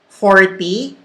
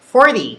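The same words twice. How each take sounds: First: It is said with a Filipino accent. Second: It is said with an American accent. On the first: The speaker calls it wrong. "It's not the Taglish forty" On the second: The speaker calls it right. "it's forty"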